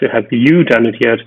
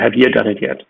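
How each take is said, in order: First: The pronoun is stressed with a full oo vowel. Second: The pronoun is unstressed with a reduced vowel. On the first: "You really have to stress the pronoun in order to pronounce the oo sound" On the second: "as opposed to"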